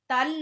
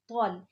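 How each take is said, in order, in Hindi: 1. आवाज़ पतली और हल्की है। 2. आवाज़ भारी और मुँह भरी हुई है। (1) "तल नहीं" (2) "ये भी तो आ गया मोटा, ... बल्कि तौल"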